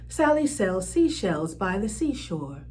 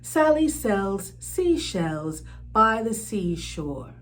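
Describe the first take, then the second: First: It is said at a faster pace. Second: It is said at a slower, moderate pace.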